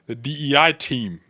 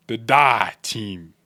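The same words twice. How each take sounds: First: Said in the usual way. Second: "The die team" said slowly, "die" as one word. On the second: Shown as a demonstration. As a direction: stretch out "die" like the word death. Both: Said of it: "D E I with an I in the middle".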